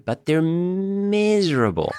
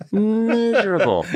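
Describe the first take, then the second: First: Slow weight on "miserable", drawn out and high; stressed miserable. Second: "Miserable" said high and slow through a laugh; laughing repeat. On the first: Telling a podcast host about Greek songs, slow stress on "miserable". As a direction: lean on the word "miserable", stretching it out slowly. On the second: Telling a podcast host about Greek songs, laughing on "Miserable". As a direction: laugh while echoing the word "Miserable". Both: Shown as a demonstration.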